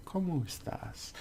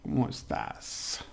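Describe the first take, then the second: First: Said in the usual way. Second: Breathy whisper with a laugh before it; whispered ¿Cómo estás? with rising tune; whispered greeting. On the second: Shown as a demonstration. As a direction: say it under your breath, playful. Teacher first says the greeting.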